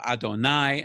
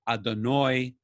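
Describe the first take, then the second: First: The last syllable has an eye vowel. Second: The last syllable has an oy vowel.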